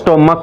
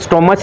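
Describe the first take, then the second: First: The middle consonant is a 'k' sound. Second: The middle consonant is a 'ch' sound. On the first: The speaker calls it right. "क का sound आ रहा है" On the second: The speaker calls it wrong. "स्टोमच नहीं है"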